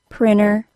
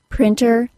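First: The T after the N is left out. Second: The T after the N is clearly pronounced.

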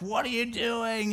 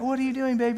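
First: It is said in a harsher tone. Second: It is said in a sweet tone.

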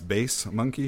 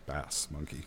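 First: Bass is said with the vowel of face. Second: Bass is said with the vowel of mass. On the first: It refers to low music tones. The speaker calls it right. "I assume that's bass monkey" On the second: It refers to a fish. The speaker calls it wrong. "because that would be a fish and a monkey"

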